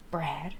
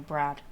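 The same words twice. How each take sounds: First: Mock American accent; playful put-on American pronunciation. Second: Said in the usual way. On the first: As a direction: say Brad as an American would. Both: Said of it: "Brad is a very American name".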